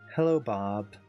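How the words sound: It is said in an angry tone. "now it's going to be a little bit angry"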